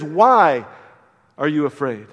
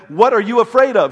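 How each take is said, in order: First: "Why" punched, then a pause before "are you afraid"; "Why" stressed and set apart by a pause. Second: "What are you afraid of" asking about the thing feared; "What" weighted, louder and higher; stress on what. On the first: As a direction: hit "Why" hard and hold a beat. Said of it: "He says". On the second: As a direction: lean on the word "What". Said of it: "he's not asking them". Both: Shown as a demonstration.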